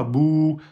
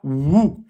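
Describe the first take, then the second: First: "Bou" with relaxed lips, no force on the lips; unforced bou. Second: "wou" with the lips pressed harder; forced wou. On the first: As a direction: let "Bou" glide out without pressing the lips. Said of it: "on force pas". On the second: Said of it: "on va forcer sur les lèvres un peu plus". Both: Shown as a demonstration.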